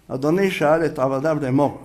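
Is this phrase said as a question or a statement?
statement. It is said with a falling statement tune. The lord did ask the servants.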